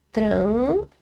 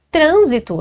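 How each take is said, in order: First: "trânsito" split slowly, tran-si-to, first syllable drawn out. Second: Said in the usual way. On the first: Shown as a demonstration. Teacher showing students where "trânsito" is stressed, syllable by syllable. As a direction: stretch "trânsito" into three separate syllables, long rising "trân". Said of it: "A antepenúltima sílaba". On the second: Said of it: "a gente sabe que é uma".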